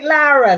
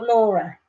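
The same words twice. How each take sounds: First: Lara with an open 'ah' first vowel; pronunciation check. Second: Laura with a rounded 'aw' first vowel; pronunciation check. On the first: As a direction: try Lara, opening up the first syllable. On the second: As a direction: say Laura as LAW-ruh. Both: Shown as a demonstration. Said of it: "I say your name incorrect".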